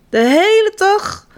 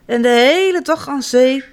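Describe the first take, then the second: First: "hele" hoger en langgerekt, langzaam; dreamy emphasis. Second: Said in the usual way. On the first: A narrator's reading. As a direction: geniet van "De hele dag", langzaam. Repeated for emphasis. (nadruk op "hele", langzaam en hoog)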